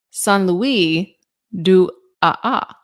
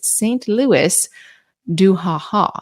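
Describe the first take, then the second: First: The name is said with French pronunciation. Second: The name is read with English pronunciation.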